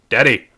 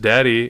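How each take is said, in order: First: It is said in a frustrated, demanding way. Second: It is said in a calm, plain way.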